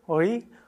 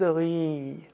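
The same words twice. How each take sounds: First: The final vowel is held short. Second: The final vowel is held long. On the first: "Ri gilt tatsächlich als Vokal" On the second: "wenn man das I verlängert"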